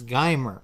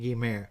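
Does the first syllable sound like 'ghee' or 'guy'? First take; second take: guy; ghee. First: The first syllable sounds like 'guy'. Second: The first syllable sounds like 'ghee'. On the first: This is the speaker's habitual way of saying it. The speaker calls it wrong. "you'll probably hear me pronounce this as Guymer" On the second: This is the correct way of saying it. The speaker calls it right. "I believe it is correctly pronounced as Saint Guimer"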